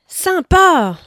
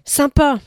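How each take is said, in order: First: It is said with exaggerated, overflowing enthusiasm. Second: It is said with lively, eager energy. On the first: The speaker is wide open and delighted. "avec ses trois points d'exclamation. La porte est grande ouverte" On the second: The speaker is genuinely keen. "Quand il arrive avec son point d'exclamation. Il y a de l'élan"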